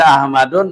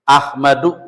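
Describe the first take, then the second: First: The word ends with an added -n sound. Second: The word ends on a vowel, without -n. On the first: The speaker calls it wrong. "Kalau kita baca Ahmadun ya salah" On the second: The speaker calls it right. "Emang nggak boleh pakai tanwin dia di sini"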